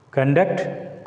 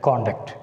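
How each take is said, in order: First: ConDUCT, weak CON, rising at the end; verb stress on second syllable. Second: CONduct, full O, falling at the end; strong CON in conduct, falling; noun stress on first syllable. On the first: Teacher recapping the verb, stress on second syllable. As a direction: lean on DUCT in Conduct, rising. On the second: Teacher recapping the noun, stress on first syllable. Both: Shown as a demonstration. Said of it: "make the difference by pronouncing them".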